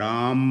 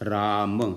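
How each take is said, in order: First: It ends on a closed 'm' with no vowel. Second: It ends with a short vowel after the 'm'. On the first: "राम में अगर स्वर नहीं लगाएंगे तो उच्चारण नहीं कर पाएंगे, मुंह बंद हो जाएगा" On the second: "जब उस आ लग जाएगा उसमें अकारांत, तब बन जाएगा"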